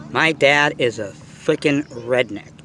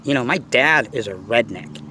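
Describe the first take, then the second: First: My dad is a freaking redneck, slowed right down with weight on "freaking"; dragging out "My dad is a freaking redneck" for emphasis; slow emphatic restatement. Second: Said in the usual way. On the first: Shown as a demonstration. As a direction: lean into "freaking" and stretch the line out.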